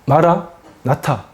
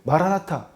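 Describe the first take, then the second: First: The word is split with a break inside. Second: The word is said smoothly without a break. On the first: The Lord has come. "제가 지금 끊어서 읽었죠?" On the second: Come, Lord, soon. "연속해서 발음하면"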